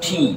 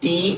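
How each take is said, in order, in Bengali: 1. এটি ব্রিটিশ ইংরেজি উচ্চারণে বলা হচ্ছে। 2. এটি বাংলাদেশি ইংরেজি উচ্চারণে বলা হচ্ছে। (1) "ওরা বলে টি" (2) "আমরা বলি টি"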